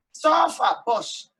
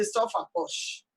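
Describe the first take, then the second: First: Said in the usual way. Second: Slow, hushed whisper of the proverb; whispered saying. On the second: Retold or imitated. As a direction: breathe the old saying out slowly. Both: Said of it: "they say".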